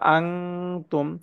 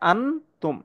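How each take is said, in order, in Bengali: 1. n হলো একটি গোপন অনুনাসিক ng ধ্বনি। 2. n-টি স্পষ্ট n হিসেবে উচ্চারিত হয়। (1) "এখানে হবে আং তুম" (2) "এটার হামদা নুন জবর আন হওয়ার কথা"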